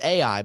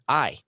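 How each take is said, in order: First: The name is said with two syllables. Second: The name is said with one syllable. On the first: The speaker calls it wrong. "some people might say" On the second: The speaker calls it right. "the actual pronunciation of this, and history says, is to pronounce a silent A"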